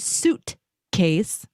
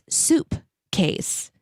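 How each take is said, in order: First: The first part is said as suit. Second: The first part is said as soup. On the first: The speaker calls it right. "it was actually suit case" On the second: The speaker calls it wrong. "heard me say it wrong"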